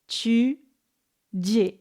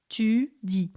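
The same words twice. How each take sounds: First: The t has a strong, prominent hissing release. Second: The t is plain, with no hiss. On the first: "the other form of affrication that is the new teenagey kind of hip way" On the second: "in standard French, we would say tu dis"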